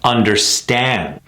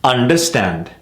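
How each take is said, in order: First: UNDERSTAND slow, with long STAND; correct stress on understand. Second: UNDERSTAND short, weak last syllable; mis-stressed understand. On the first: Coach modelling the right rhythm, stressed under-STAND. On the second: Coach showing a common mistake, mis-stressed UNDERSTAND. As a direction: keep STAND short in UNDERSTAND. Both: Shown as a demonstration. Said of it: "It's very clear".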